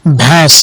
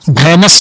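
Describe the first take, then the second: First: The vowel is nasalized with no separate n. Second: A full n consonant is sounded before the s. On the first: The speaker calls it right. "इसको क्या पढ़ेंगे? ... ये नून गुन्ना है" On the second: The speaker calls it wrong. "भैनस नहीं पड़ेगी"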